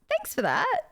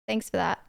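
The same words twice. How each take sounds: First: It is said in a genuine tone. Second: It is said in a sarcastic tone.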